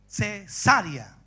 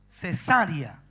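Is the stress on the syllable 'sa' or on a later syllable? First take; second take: sa; sa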